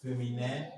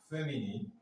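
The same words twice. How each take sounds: First: Féminin with a French nasal ending; French pronunciation. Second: Said in the usual way. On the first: Shown as a demonstration. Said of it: "French people say".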